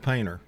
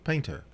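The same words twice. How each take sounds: First: It is said in a plain, folksy, down-home way. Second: It is said in a refined, sophisticated way. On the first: The speaker paints walls for a living. "That sounds like a good old boy" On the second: The speaker is an artist. "Which means I'm an artist"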